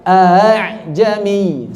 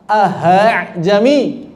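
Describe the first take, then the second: First: The second hamzah is softened, gliding toward the vowel. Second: The second hamzah becomes an h sound. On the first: The speaker calls it right. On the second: The speaker calls it wrong. "berubah diibdal jadi ha"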